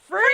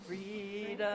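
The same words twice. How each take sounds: First: It ends in a high screech. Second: It ends without any screech.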